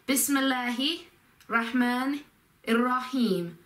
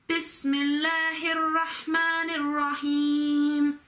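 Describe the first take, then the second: First: The words are said separately without linking sounds. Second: The words are linked together in one flow. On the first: The speaker calls it wrong. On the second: The speaker calls it right.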